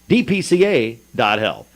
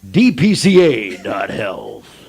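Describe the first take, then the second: First: It is said with mild inflection, no announcer voice. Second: It is said in a bold radio-announcer voice. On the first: "I guess if I put a little more inflection in it" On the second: "a little bit more radio voice"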